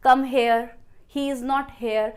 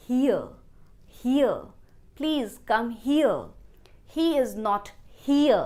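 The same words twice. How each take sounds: First: "here" said like "hair"; higher, mistaken "hair" vowel in "here"; sample phrases with "here" as "hay-er"; mispronunciation. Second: "here" as "hee-uh"; long ee gliding off in "here"; falling "here" with no hair vowel; correct pronunciation. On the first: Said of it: "पर हेयर तो बाल होते हैं". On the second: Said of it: "सही pronunciation है". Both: Shown as a demonstration.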